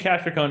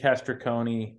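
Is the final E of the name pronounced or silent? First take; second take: silent; pronounced. First: The final E is silent. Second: The final E is pronounced as a syllable. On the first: The speaker calls it right. "Don't do the E" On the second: The speaker calls it wrong. "did I pronounce that right"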